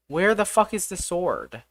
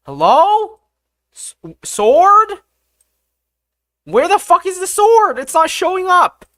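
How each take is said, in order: First: Said in the usual way. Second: High, loud exasperated shout; frustrated yelling. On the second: Real, not acted. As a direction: yell it out, fed up. Frustrated yelling for the missing sword.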